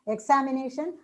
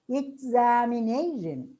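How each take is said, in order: First: The syllable 'na' carries no clear stress. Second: The syllable 'na' carries clear stress. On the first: The speaker calls it wrong. "we tend to pronounce it as" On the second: The speaker calls it right. "these words are to be pronounced as"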